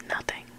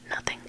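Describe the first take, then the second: No difference in how they are said.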